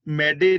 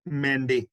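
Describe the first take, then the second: First: ਮੈਡੇ said with a plain d and no nasal; wrong pronunciation. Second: ਮੈਂਡੇ said with a nasal vowel and a retroflex nd; correct pronunciation. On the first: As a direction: show ਮੈਡੇ as mai-de, the way not to read it. (ਗਲਤ ਉਚਾਰਨ ਮੈਡੇ, ਬਿਨਾਂ ਨਾਸਿਕ) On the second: (ਸਹੀ ਉਚਾਰਨ ਮੈਂਡੇ, ਨਾਸਿਕ ਤੇ ਟੈਂਕਾ ਡ) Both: Shown as a demonstration. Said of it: "ਇਹਨੂੰ ਮੈਡੇ ਨਹੀਂ ਪੜਨਾ".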